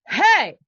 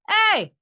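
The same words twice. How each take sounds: First: The shout is driven by air and sounds open. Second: The shout is squeezed in the throat and strained. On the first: This can be repeated many times safely. The speaker calls it right. "I'm using that here. I can do that" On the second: This will ruin the voice quickly. The speaker calls it wrong. "I'm using pressure here that's that's gonna kill my voice"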